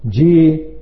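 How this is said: It is said as calm, agreeing acknowledgement. The listener agrees with what is being said. "All the time you was agreeing"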